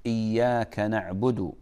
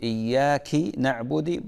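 First: إياك ending in a, slow; correct recitation. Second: إياك ending in i, iyyaki; wrong ending. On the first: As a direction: say إياك as iyyaka. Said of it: "إذا قلت". (إياكَ بالفتح) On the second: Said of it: "بطلت الصلاة". (إياكِ بالكسر خطأ) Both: Shown as a demonstration.

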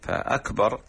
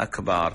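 First: Said in the usual way. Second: أكبر said "akbaar", long second vowel; extra alif. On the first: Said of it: "همزة وكاف وباء وراء". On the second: Shown as a demonstration. Sheikh spelling out the faulty word, extra alif. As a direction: add a long aa after the b in أكبر. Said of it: "وباء وألف زائدة".

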